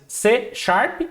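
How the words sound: The name is said with Portuguese pronunciation. "pronuncia-se C Sharp em português"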